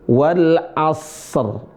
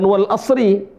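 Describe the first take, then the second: First: The phrase ends on a bare r sound. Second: The phrase ends with r plus an i vowel. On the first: The speaker calls it right. "roknya sukun" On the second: The speaker calls it wrong. "Bukan wal asri"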